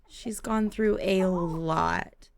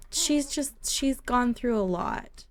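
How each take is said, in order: First: Slow, heavy "through a lot"; weighty repeat. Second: Higher, slow sympathetic lilt; slow, gentle commiseration. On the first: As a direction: stretch "through a lot" for emphasis. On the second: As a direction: say it pityingly, softer and higher. Pitying a character, repeats the words. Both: Real, not acted.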